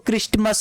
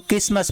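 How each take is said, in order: First: A t sound is pronounced after the s. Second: No t sound is pronounced after the s. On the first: The speaker calls it wrong. "इसको क्रिस्टमस नहीं पढ़ते हैं" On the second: The speaker calls it right. "इसको क्रिसमस पढ़ते हैं"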